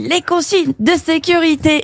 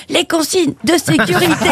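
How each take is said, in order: First: Eager passenger. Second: Higher, slow teasing hostess; drawn-out suggestive cabin crew line; knowing flight attendant. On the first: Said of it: "tous les mecs faisaient". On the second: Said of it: "elle dit". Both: Retold or imitated.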